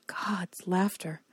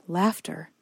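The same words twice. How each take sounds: First: Slow breathless whisper. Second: Said in the usual way. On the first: Shown as a demonstration. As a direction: breathe it out slowly, in awe.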